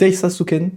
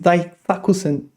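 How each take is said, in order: First: The word ends with the syllables su-ken. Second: The word ends with the syllables ku-sen. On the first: The speaker calls it wrong. "I always pronounce it Daisasuken" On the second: The speaker calls it right. "but it says Daisakusen"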